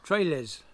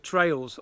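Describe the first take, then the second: First: The word is split into two syllables. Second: The word is said as one syllable. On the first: The speaker calls it wrong. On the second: The speaker calls it right.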